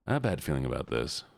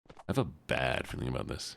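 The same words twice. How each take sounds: First: Said in the usual way. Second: Soft, low line leaning long on "bad"; stress on bad. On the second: Real, not acted. Repeats line with more emphasis.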